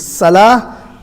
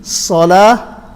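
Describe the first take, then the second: First: Salah with a thin, light "sa"; empty-mouth s on Salah; seen. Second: Salah with a heavy rounded "so"; full-mouth s on Salah; sad. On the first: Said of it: "is a seen". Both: Shown as a demonstration.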